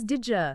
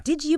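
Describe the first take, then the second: First: "did ya" fused into "didja"; blended connected speech. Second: Said in the usual way. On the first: Shown as a demonstration. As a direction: blend "did ya" with a j sound in the middle. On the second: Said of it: "native speakers blend words together".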